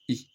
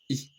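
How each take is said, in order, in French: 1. La voyelle est courte et faible. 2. La voyelle est courte et faible.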